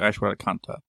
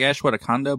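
First: The name ends with a T sound. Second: The name ends without a T sound. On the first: "but with a T at the end" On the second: "It almost sounded like"

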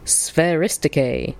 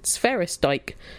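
First: The word has an ancient Greek pronunciation. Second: The word has an anglicized pronunciation. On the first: "He named it after the ancient Greek for ball skills" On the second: "Not being ancient Greeks, they'd pronounce it"

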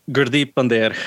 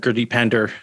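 First: The name has a Punjabi pronunciation. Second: The name has an anglicized pronunciation.

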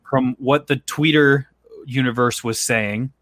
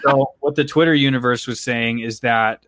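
First: It is said like an old person. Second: It is said in a normal voice.

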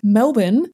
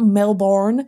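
First: It is said in an Australian accent. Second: It is said in an American accent. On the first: The speaker calls it right. "Melbourne, not Melbourne" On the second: The speaker calls it wrong. "not Melbourne"

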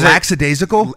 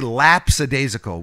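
First: The middle has a plain 'k' sound, no 'p'. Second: The middle has a 'ps' sound with a 'p'. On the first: The speaker calls it right. "Was it lackadaisical?" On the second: The speaker calls it wrong. "He would say lapsadaisical with a P"

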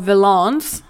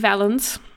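First: The name is pronounced in a French-sounding way. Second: The name is pronounced in a plain English way.

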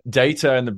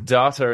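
First: The word has the British pronunciation. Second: The word has the Australian and American pronunciation. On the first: "Data in British world" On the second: "Data in Australia and the US or whatever"

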